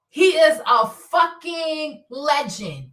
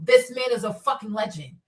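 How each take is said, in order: First: Each word drawn out, half as fast; slow emphatic repeat. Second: Said in the usual way. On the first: Real, not acted. Praising the surgeon to viewers, slow and emphatic. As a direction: lean on every word of "He is a fucking legend".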